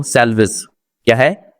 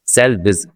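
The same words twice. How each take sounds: First: Said in the usual way. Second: The corrected way to say सैल्वेज; correct pronunciation. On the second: Shown as a demonstration. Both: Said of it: "सैल्वेज नहीं है".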